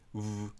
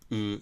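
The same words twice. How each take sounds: First: The vowel is said with the lips narrowed. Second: The vowel is said without narrowing the lips. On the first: "狭める" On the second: "狭めない"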